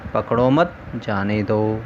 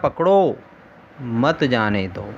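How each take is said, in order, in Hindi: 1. विराम दूसरे शब्द के बाद आता है। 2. विराम पहले शब्द के बाद आता है। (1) "आपने ही तो कहा था कि पकड़ो मत, जाने दो।" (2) "अरे मूर्ख, मैंने कहा था"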